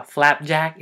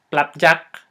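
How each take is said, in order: First: Said in the usual way. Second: "plapjack" with a loud P for F; Filipino-accented "plapjack". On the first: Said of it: "for example". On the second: Shown as a demonstration. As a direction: punch "plapjack", P replacing the F. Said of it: "There's no F sound".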